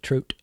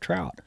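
First: The word is said in a Canadian accent. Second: The word is said in a plain American accent.

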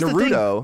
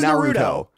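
First: The name is said with English-style sounds. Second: The name is said with Japanese-style sounds. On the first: "the anglicization" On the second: "I have never I have never heard you put on an accent like that"

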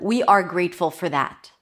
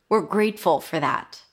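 First: We and are are said as two separate words. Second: We and are are joined into one contracted word. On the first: The speaker calls it wrong. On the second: The speaker calls it right.

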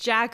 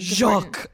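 First: The name is said the plain English way. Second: The name is said with an exaggerated French sound. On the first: "in English it would be Jack" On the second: "be as pretentious as you possibly can"

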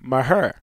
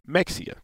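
First: It is said the way locals say it. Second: It is said the way northerners say it.

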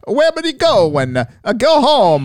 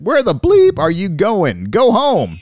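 First: It is said in an Italian accent. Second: It is said in a plain accent.

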